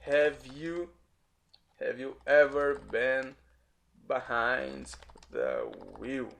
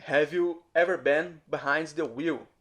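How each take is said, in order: First: Word groups with long pauses; slow, careful English dictation; slow teaching read. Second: Said in the usual way. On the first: Shown as a demonstration. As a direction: break the question up slowly for learners. Teacher repeats example slowly in chunks.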